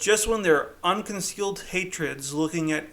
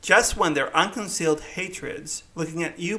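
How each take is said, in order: First: It is read in his natural voice. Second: It is read in a put-on voice.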